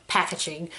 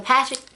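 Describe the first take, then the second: First: Packaging muttered softly under breath; quiet mutter. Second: Said in the usual way. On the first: Real, not acted. Muttered self-correction of package.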